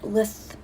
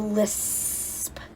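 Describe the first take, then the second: First: The s sound is said like th. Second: The s sound is a long snakelike hiss. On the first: "sound like a T H lisp" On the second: "I go lisp"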